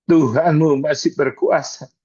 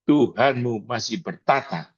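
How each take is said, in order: First: Preacher lifts the line into a loud declaration; louder declaration. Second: Said in the usual way. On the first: Shown as a demonstration. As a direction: proclaim "Tuhanmu masih berkuasa" louder, with force. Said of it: "preacher repeats phrase louder". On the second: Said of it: "preacher repeats phrase".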